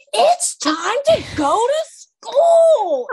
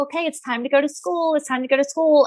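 First: High, slow, drawn-out exasperated yell; snapping mom. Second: High, sweet coaxing; gently herd the kids; nice mom voice. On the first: Mom who flipped, yelling at kids to leave, high and slow. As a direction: lose it at the kids, dragging each word. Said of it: "I, like, flip from". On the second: Mom gently telling kids it's school time. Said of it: "I try to be so nice". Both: Retold or imitated.

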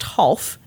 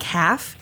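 First: "Half" with an aw vowel, like hawlf; German name pronunciation. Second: "half" with the a as in cat, /hæf/; spelled-out reading. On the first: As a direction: say "Half" as /hɔlf/, rhyming with golf. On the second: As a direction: say "half" like the ordinary word half. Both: Shown as a demonstration. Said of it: "But it's pronounced Half".

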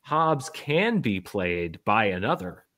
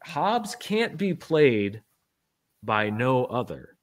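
First: "can" pitched up and stretched, line slow; slow, pointed "can", then "another" spelled out; stress on CAN. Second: Slow, weighted "no other"; slow, pointed emphasis. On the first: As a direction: punch "can" to reverse the meaning. Gives literal meaning against the quote. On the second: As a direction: spell it out deliberately, leaning on "can't". Repeats quote slowly for literal reading. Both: Shown as a demonstration.

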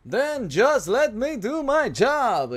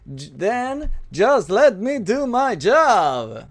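First: Slow, drawn-out hip-cocked Negan line; slow, smug villain drawl; Negan impression. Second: Slow, drawn-out Negan swagger; slow, menacing cowboy drawl; Negan impression. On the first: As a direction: stretch it out with Negan's swagger. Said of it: "intenté copiar como el acento de él". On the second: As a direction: lean into each word like Negan. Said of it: "ese fue un homenaje a Negan". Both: Shown as a demonstration.

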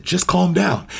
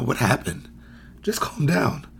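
First: Sharp, higher dismissive brush-off; dismissive judgy tone. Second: Gentle, hushed concern with a judgy edge; soft but judgy. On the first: Parent brushing off an upset child, dismissive. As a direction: say it like their upset doesn't matter. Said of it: "even you heard my voice". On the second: Coach softly calming a child, still judgy. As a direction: sound caring yet still dismissive. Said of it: "a little empathetic in my voice, but it's still judgy". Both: Shown as a demonstration.

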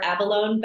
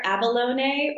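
First: Abalone ending like the word alone; alternative pronunciation. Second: Abalone with an extra vowel syllable at the end; alternative pronunciation. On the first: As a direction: say abalone in three syllables with a silent final e. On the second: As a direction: say abalone in four syllables, sounding the final e. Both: Shown as a demonstration. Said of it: "don't know if I'm pronouncing it correctly".

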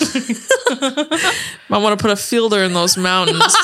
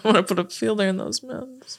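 First: Laughing movie quote. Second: Quieter movie quote. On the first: Quoting a movie line. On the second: Quoting a movie line again. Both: Retold or imitated.

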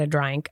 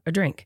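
First: Said in the usual way. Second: Hushed, knowing "a drink" meaning alcohol; odd "a drink". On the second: Shown as a demonstration. Explaining the in-flight drink offer with a loaded "a drink". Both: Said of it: "Why are you saying a drink like that?".

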